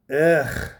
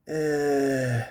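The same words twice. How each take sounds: First: Short, higher, louder imitated ugh; mock disgusted groan. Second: Drawn-out comic groan; mock powerful grunt. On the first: Wife reciprocates in bed, imitated higher, louder groan. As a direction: answer with a loud, pitched-up comic groan. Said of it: "and you reciprocated with". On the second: Husband finishing in bed, hammed-up long grunt. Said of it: "I gave my powerful".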